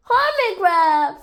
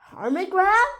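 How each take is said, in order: First: High, loud call falling at the end; joyful exclamation. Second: High, rising disbelief; surprised question. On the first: Rabbit greeting the found friend, loud high exclamation. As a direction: cry out the friend's name. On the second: Lion recognising the lost friend, surprised rising question. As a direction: ask it with a sharp lift at the end. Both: A narrator's reading.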